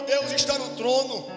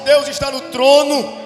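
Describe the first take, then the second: First: It is said at normal volume. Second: It is said louder and stronger.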